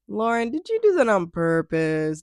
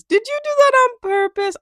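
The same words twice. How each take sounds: First: Said in the usual way. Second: Much higher, louder, teasing; playful high accusation; mock accusing squeal. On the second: Real, not acted. Teasing repeat, high and loud.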